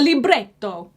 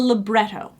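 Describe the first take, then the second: First: It is said with an Italian-style pronunciation. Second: It is said with a plain English pronunciation. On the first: "if you're Italian and fancy" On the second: "that's called the libretto"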